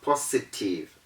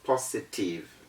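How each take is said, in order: First: The s is said as a hissing s sound. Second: The s is said as a buzzing z sound. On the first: The speaker calls it wrong. "It is not positive" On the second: The speaker calls it right. "that is why we say positive"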